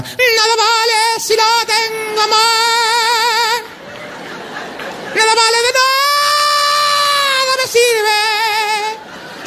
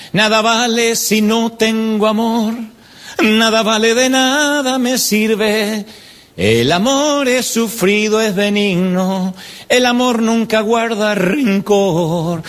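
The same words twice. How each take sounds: First: Sung, canto muy agudo y lento, a gritos, en burla; sung, imita a las hermanas cantando fuerte y desafinado; sung, canto burlón de las hermanas. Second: Sung, recita la canción despacio y algo más agudo; sung, evoca el himno juvenil, pausado; sung, letra recitada lenta. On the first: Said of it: "las hermanas cantaban". (sung, imitación burlona muy aguda y lenta del canto de las hermanas) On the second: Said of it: "una canción que cantábamos". (sung, el predicador recuerda la canción juvenil, recitada despacio) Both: Retold or imitated.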